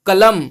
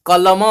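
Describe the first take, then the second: First: "कलम" closed firmly on the m; Hindi halant ending. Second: "कलम" with rounded vowels, as "kolomo"; Odia open ending. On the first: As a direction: say "कलम" as "kalam", no final vowel. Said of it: "हमेशा हलंत उच्चारण होता है". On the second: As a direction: end "कलम" on an o sound, Odia style. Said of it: "पर ओडिया में". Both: Shown as a demonstration.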